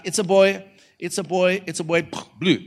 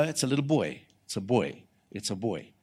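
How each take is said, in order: First: High, repeated cheering call; excited anticipation. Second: Soft, dropping low; quiet assurance. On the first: Preacher watching the reveal video, high and expectant. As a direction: call it out higher, awaiting the reveal. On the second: Preacher telling expectant couple the sex, quiet and certain. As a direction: say it softly as settled fact. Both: Retold or imitated.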